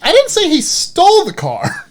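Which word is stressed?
stole. The stress is on "stole".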